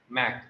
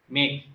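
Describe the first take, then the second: First: The vowel is short, like the a in cat. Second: The vowel is long, like the a in cake. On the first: The speaker calls it wrong. "It's not Mac" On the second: The speaker calls it right. "A, A sound"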